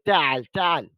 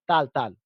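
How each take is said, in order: First: The throaty ain sound is clearly pronounced. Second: The throaty ain sound is left out. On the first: The speaker calls it right. "यानी वो आइन को प्रोनाउंस करेंगे।" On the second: Non-native speakers say it this way. The speaker calls it wrong. "तो हम उस आइन को ज्यादा कंसिडर नहीं करते"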